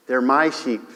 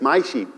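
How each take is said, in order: First: "my" stressed, "sheep" falls away; weight on "my". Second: "My" stressed hard, rest falling. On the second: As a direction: lean on "My". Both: Shown as a demonstration. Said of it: "they're very specific".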